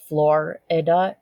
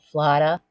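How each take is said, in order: First: The R is fully pronounced. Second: The R is dropped, Boston style.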